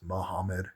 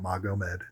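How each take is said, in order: First: The name has an h sound in the middle. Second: The name has a g sound in the middle. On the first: The speaker calls it right. "it's Muhammad, G is H" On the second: The speaker calls it wrong. "It's not Magomed"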